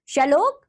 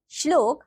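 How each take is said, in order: First: श्लोक with a vowel splitting "shl"; mispronounced श्लोक. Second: श्लोक with "shl" joined; correct श्लोक. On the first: Teacher showing children a wrong form, mispronounced. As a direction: say श्लोक wrongly as "sha-lok". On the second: Teacher giving children the right form, correctly pronounced. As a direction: say श्लोक carefully as "shlok". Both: Shown as a demonstration. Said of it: "नीचे कुछ अशुद्ध शब्द".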